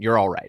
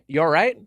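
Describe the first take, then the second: First: The pitch falls at the end, like a statement. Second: The pitch rises at the end, like a question. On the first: The speaker is reassuring the listener that they are okay. The speaker calls it right. "I should have said it as a statement" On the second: The speaker is asking whether the listener is okay. The speaker calls it wrong. "I said it as a question"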